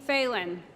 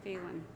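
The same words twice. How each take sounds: First: Said in the usual way. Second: Name muttered softly to himself, falling; quiet check. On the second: Real, not acted. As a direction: quietly try out "Phelan" under the breath, as /feɪlən/. Checks name before announcing.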